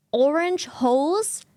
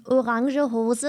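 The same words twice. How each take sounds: First: Orange hose with English OR-inj and one-syllable hose; English pronunciation. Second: Orange hose as o-RAHN-zhuh HO-zuh; Germified pronunciation. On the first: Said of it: "It doesn't make sense in German". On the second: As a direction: say orange hose the German way, final e's sounded. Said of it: "you have to Germify it". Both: Acted.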